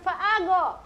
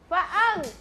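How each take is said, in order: First: The consonant is released with a bouncing echo. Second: The consonant is held without any bouncing release. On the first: The speaker calls it wrong. "Bukan fa'ago ... tidak boleh dipantulkan" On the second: The speaker calls it right.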